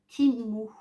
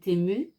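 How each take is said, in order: First: The first vowel sounds like 'ee'. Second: The first vowel sounds like French 'é'. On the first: This is the English way to say the name. The speaker calls it right. "le E en anglais se dit I et le U se dit OU" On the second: This is how the name used to be said. The speaker calls it wrong. "jusqu'à maintenant, je disais Temu"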